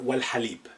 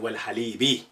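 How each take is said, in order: First: The word ends on a bare consonant. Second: The word ends with an added vowel sound.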